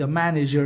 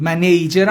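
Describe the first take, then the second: First: Said in the usual way. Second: "منیجر" with a long "ey" in the middle, louder; discouraged pronunciation. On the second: Shown as a demonstration. Teacher warning students off a variant, "منیجر" said as "ma-ney-jer".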